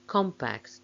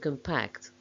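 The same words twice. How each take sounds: First: The stress is on the first syllable. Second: The stress is on the second syllable. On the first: It is used as a noun. "main stress of the nouns is on the first syllable" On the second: It is used as a verb. "main stress of the verbs is on the second syllable"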